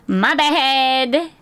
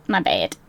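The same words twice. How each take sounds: First: Light chipper sorry; perky apology. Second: Much lower, a comic growl of an apology; mock-deep sorry. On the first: Pretend. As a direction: toss off a chirpy apology. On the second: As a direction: drop the voice way down for a joke sorry. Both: Apology said two ways.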